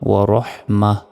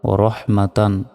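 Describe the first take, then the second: First: The word ends on a short 'ma' sound. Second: The word ends with a full 'tan' syllable. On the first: The reading stops at this word. "গোল তার এখানে থামলে ছোট হারে উচ্চারণ হয়, তখন উচ্চারণটা হবে ওয়া রহ মা" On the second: The reading continues without stopping. "তা দুই জবর তান ও রহ মা তান"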